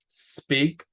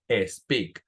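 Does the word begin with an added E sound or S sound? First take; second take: S sound; E sound. First: The word begins directly with the S sound. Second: An extra E vowel comes before the S. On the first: The speaker calls it right. "lo que tenemos que hacer es el sonido de S" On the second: The speaker calls it wrong. "en español solemos agregarle una E. A veces decimos sleep o speak"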